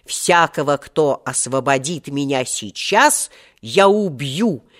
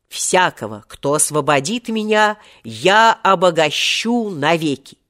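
First: Wrathful vow. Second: Solemn vow. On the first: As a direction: pronounce a death sentence deliberately. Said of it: "тогда я разгневался сильным гневом". (гневная клятва, с расстановкой) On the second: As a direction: declaim a generous oath, pitch lifting. Genie recalls his first generous vow. (торжественная клятва) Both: Acted.

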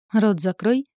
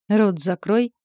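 First: Рот закрой with a rising Рот, snapped; girl snapping at the mocking knight; snapped at him. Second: Рот закрой barked, Рот rising hard; angry bark. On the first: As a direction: bite off Рот закрой angrily. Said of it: "вызверилась". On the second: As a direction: growl Рот закрой at the other demon. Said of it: "злобно гаркнул Асмодей". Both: A narrator's reading.

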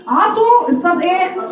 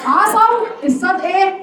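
First: عصوا with damma on the sad, "ʕasu", slow; rounded sad. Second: عصوا with fath on the sad, "ʕasaw", slow; open sad. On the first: Teacher asking students about عصوا, damma on sad, slow. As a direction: say عصوا as "asu". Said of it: "مضمومه". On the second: Teacher asking students about عصوا, open sad, slow. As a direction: say عصوا as "asaw". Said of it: "مفتوحه". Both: Shown as a demonstration.

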